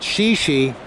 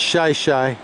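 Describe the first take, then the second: First: The vowels sound like 'ee' as in 'she'. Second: The vowels sound like 'eye' as in 'shy'. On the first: The speaker is not from around here. The speaker calls it wrong. "one might think that it was pronounced Shishi" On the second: The speaker is a local. The speaker calls it right. "It's Shih Tzu"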